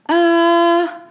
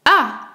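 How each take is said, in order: First: The pitch stays high and level. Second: The pitch falls sharply from high to low. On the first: "Stable, constant, haut" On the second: "Il commence par l'aigu et descend très grave"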